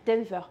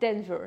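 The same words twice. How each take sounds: First: It is said with a French accent. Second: It is said with an American accent. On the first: "En français, on va dire" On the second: "En américain, vous allez plutôt dire"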